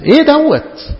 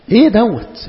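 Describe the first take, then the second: First: Higher, louder incredulous repeat; exasperated outburst. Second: A puzzled, slightly raised question; incredulous question. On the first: Preacher repeating his question to the congregation, now exasperated. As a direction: throw the question out in disbelief. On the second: Preacher questioning his flock, puzzled but still restrained. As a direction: ask it as if you can't believe it. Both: Real, not acted.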